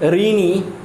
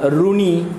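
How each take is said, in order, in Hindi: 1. पहला अक्षर 'ri' जैसा लगता है। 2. पहला अक्षर 'ru' जैसा लगता है। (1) "हिंदी में इसका उच्चारण री" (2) "रू मराठी में कहते हैं उसे"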